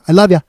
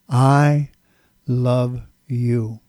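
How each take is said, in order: First: It is said fast, words run together. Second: It is said slowly, three distinct words.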